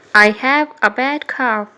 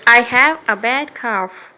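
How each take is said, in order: Both takes have the same delivery.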